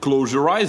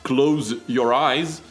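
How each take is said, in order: First: The words run together as one word. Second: The words are kept apart as separate words. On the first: "я говорю как одно слово" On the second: "как два"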